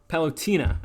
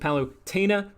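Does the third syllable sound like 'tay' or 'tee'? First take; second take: tee; tay. First: The third syllable has a 'tee' sound. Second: The third syllable has a 'tay' sound. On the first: This is the habitual way of saying the name. The speaker calls it wrong. "I always pronounced it Palutina" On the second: This follows the name's spelling. The speaker calls it right. "but there's an E, so it's Palutena"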